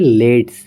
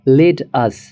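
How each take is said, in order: First: One contracted syllable: let's. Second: Two full words: let, then us.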